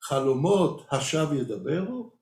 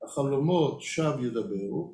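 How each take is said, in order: First: It is said as a question, rising. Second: It is said as a statement, falling. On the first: Do dreams really speak falsely? "or you can say it as a question mark" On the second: Dreams speak falsely. "You can read it as a statement"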